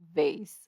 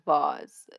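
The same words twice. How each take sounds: First: It is said in a plain, everyday way. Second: It is said in a fancy, showy way. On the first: It is the usual everyday form. "on a regular, like a normal, I use vase" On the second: It is done just for show. "sometimes I say vase just for the pizzazz"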